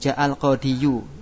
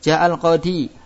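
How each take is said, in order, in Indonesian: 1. Kata ini berakhir dengan bunyi yu tambahan. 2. Kata ini berakhir dengan i panjang biasa. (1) "Ada doma kan? Nah, berat untuk diucap" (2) "Terlihat tidak domanya? Tidak terlihat"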